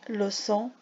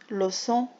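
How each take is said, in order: No difference in how they are said.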